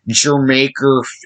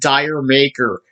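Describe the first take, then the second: First: The first syllable sounds like 'jer'. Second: The first syllable sounds like 'dire'. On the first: The speaker calls it right. "It's not Dire Maker" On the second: The speaker calls it wrong. "It's not Dire Maker"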